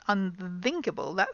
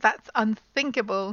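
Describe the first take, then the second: First: The th is voiced, with the throat vibrating. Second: The th is voiceless, with only air. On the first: The speaker calls it wrong. "not unthinkable. That's wrong" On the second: The speaker calls it right. "It's got to be unthinkable"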